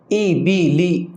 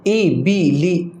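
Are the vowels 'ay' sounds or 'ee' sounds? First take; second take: ee; ee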